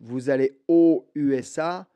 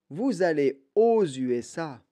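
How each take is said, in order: First: No z sound links 'aux' to 'USA'. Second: A z sound links 'aux' to 'USA'. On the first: The speaker calls it wrong. "c'est pas une erreur euh, énorme" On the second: The speaker calls it right.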